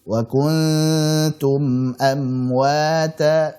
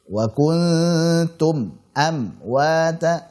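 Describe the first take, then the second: First: The words flow on slightly without breaks. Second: The words are cut apart with breaks. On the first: The speaker calls it right. "Yang betul mengalir sedikit" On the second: The speaker calls it wrong. "kalau diputus-putus seperti itu salah"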